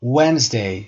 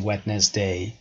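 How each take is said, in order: First: Wednesday as WENZ-day, first syllable strong; Wednesday in two syllables, no D; silent D. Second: Wednesday sounded out as WED-nes-day; Wednesday in three syllables, as spelled; wrong, D pronounced. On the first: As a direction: drop the D in Wednesday, stress WENZ. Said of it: "استرس هم که قسمت اول هست". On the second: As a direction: voice the silent D in Wednesday. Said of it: "silent letter هست". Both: Shown as a demonstration.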